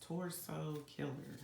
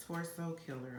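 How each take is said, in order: First: Slowly, carefully sounded out. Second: Said in the usual way. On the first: Real, not acted. Reader struggling to say torso fast, so saying it slowly. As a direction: take your time over each word. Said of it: "I have to say it slow". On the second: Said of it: "can't say torso fast".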